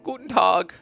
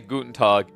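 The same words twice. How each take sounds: First: It is said in an exaggerated, campy voice. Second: It is said in a plain, normal voice. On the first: "in a very kind of campy way" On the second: "I actually did there"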